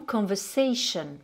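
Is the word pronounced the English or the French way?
English. The ending sounds like English 'shun', not 'sion'.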